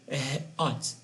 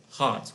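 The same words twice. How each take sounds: First: "hot" wrongly split into a breathy "h" and then "ot"; "hot" in two pieces, h... ot; broken mid-word. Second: Said in the usual way. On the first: Shown as a demonstration. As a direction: cut "hot" in two after the first sound. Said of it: "you can't say". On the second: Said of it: "it's one word".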